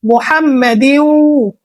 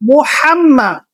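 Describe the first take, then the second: First: মুহাম্মাদিন with a strong throaty ḥa; মুহাম্মাদিন with a full throaty ḥa; correct Arabic pronunciation. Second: মোহাম্মা with a plain breathy h; মোহাম্মা, loose h, the way many people say it; common mispronunciation. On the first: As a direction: push the h of মুহাম্মাদিন hard from the throat. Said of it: "হায় হত্যি উচ্চারণ করতে হবে". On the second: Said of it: "অনেকজন বলে থাকি". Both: Shown as a demonstration.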